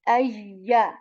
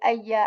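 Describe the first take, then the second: First: The consonant is said slowly and carefully. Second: The consonant is said quickly and loosely. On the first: The speaker calls it right. "Okay, like this" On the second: The speaker calls it wrong. "We just don't say ayya, ayi, ayu. Okay, not like this"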